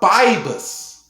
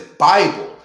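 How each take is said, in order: First: The word ends with an s sound. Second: The word ends with an l sound. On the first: The speaker calls it wrong. "people talking about Bibus" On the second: The speaker calls it right. "mine says Bible"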